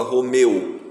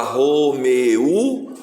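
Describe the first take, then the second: First: Said in the usual way. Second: ROMEU drawn out in three beats, "ro-me-u"; wrongly split syllables. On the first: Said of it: "ou você fala Romeu?". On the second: Shown as a demonstration. Teacher offering pupils a wrong division, slow ro-me-u. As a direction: stretch ROMEU slowly, splitting the final "e-u". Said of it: "Você fala Romeu ou você fala Romeu?".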